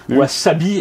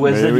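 First: The middle consonant is a hissing S sound. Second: The middle consonant is a buzzing Z sound. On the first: The speaker calls it right. "C'est comme wasabi" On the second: The speaker calls it wrong. "et pas wasabi"

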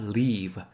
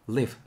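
First: The vowel in live is drawn out long. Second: The vowel in live is said short. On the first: The speaker calls it wrong. "not live" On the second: The speaker calls it right. "짧게 발음해 주세요"

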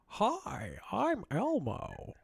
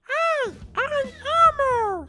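First: It does not sound like Elmo. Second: It sounds convincingly like Elmo.

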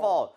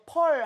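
First: It begins with a true f sound. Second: It begins with the lips pressed together. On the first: The speaker calls it right. "F를 위해서 최적화돼 있어" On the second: The speaker calls it wrong. "입술이 붙어서 펄 하면 안 되겠죠"

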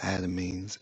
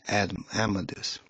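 First: It sounds like 'ad-uh-meens', ending in -meens. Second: It sounds like 'am-ih-deez', ending in -deez. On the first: The speaker calls it wrong. "I might be saying that wrong" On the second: The speaker calls it right. "I think that's the proper way to pronounce it"

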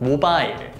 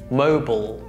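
First: It is said with Korean pronunciation. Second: It is said with American pronunciation. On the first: "Korean pronunciation" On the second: "American pronunciation"

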